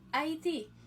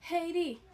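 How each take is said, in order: First: It is said with a Spanish pronunciation. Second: It is said with an English pronunciation. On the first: "hispanophone nan dit Haïti" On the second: "anglophone nan dit Haiti"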